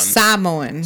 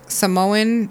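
First: The word is said in a Samoan way. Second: The word is said in an English way. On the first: The speaker calls it right. "It's Samoan" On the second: The speaker calls it wrong. "when you say like Samoan, it's not even Samoan"

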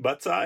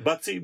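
First: The word ends with an 'eye' sound. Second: The word ends with an 'ee' sound.

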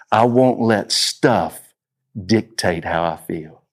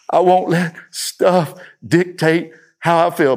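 First: It is said at normal volume. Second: It is said a little louder.

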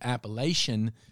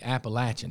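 First: The third syllable sounds like 'lay'. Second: The third syllable sounds like 'latch'. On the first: The speaker is an outsider to the region. The speaker calls it wrong. "If you say Appalachian, then you are not" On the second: The speaker is a local from the region. The speaker calls it right. "we know if you're an Appalachian, if you say Appalachian"

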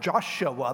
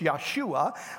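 First: The name begins with a J sound. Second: The name begins with a Y sound. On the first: This is the usual modern form of the name. "which we pronounce it Joshua" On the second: This is the original form of the name. "but it's Yahshua"

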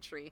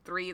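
First: The word begins with a plain 't' sound. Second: The word begins with a 'th' sound. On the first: "they say tree" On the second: "my West Indian folks don't say three"

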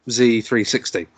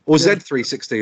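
First: The letter Z is said the American way. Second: The letter Z is said the British way.

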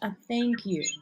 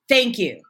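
First: It is said warmly and softly. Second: It is said aggressively and hard.

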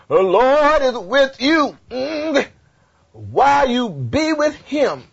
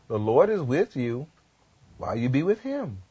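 First: It is delivered in an imitated preacher style. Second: It is delivered in a plain reading voice. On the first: "Let me say like the Baptist preacher" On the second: "read it again without the Baptist"

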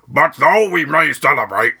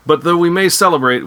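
First: It is in an Admiral Ackbar impression voice. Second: It is in the speaker's own regular voice.

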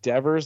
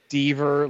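First: The first vowel is short, as in never. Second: The first vowel is long, as in fever. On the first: "Is it Devers like Nevers" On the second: "is it Deaver like Fever"

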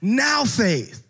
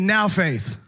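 First: The phrase is said with more force and energy. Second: The phrase is said plainly, without extra energy. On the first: "you'll say it with a little bit more like, yeah" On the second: "Say it with me"

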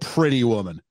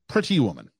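First: The T's are slurred together, North American-style. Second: Both T's are clearly pronounced, British-style.

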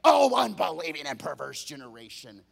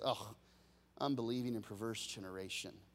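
First: It sounds harsh and scolding. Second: It sounds sad and heartbroken.

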